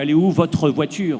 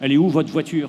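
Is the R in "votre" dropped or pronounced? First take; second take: pronounced; dropped. First: The R in "votre" is clearly pronounced. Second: The R in "votre" is dropped. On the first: The speaker calls it wrong. "on ne dit pas" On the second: The speaker calls it right. "On enlève le « R » à « votre ». C'est une faute, mais c'est naturel"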